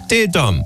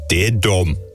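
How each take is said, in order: First: It is read in the speaker's ordinary voice. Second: It is read imitating another man's voice.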